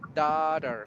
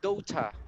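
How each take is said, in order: First: The word is said in an American accent. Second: The word is said in a British accent. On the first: "American, yes, we say daughter" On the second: "British sounds like daughter"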